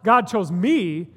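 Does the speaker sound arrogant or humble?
arrogant. It is said in a proud, self-important tone. The speaker claims special status for themselves. The speaker calls it wrong. "It can feel and sound a little bit arrogant"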